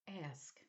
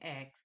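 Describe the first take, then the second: First: The word ends with an 'sk' sound. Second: The word ends with a 'ks' sound, like 'axe'. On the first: The speaker calls it right. "and say ask" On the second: The speaker calls it wrong. "stay away from saying ask"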